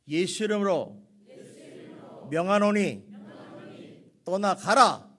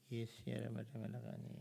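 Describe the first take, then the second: First: It is said loudly and forcefully. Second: It is said quietly, under the breath.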